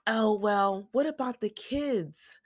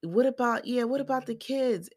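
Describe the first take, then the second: First: High, drawn-out mock worrying; Janelle. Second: High-pitched mimicking echo; Robin. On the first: Recapper mimics a co-wife fretting over kids, mock worried. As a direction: lift it high and stretch it out, mimicking. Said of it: "Janelle's all like". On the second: Recapper mimics co-wife joining in about kids, high mocking echo. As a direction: chime in high, parroting the question. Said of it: "and here go Robin".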